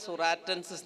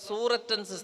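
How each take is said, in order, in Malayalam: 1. തുടക്കം സൂററ്റ് പോലെ തോന്നുന്നില്ല. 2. തുടക്കം സൂററ്റ് എന്ന നഗരപ്പേരു പോലെ തോന്നുന്നു. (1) "കുട്ടികൾ വായിക്കുന്നത് സുറാറ്റൻസിസ് എന്നാണ്" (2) "എട്രോ പ്ലസ് സൂററ്റൻസിസ് എന്ന് വായിക്കണം"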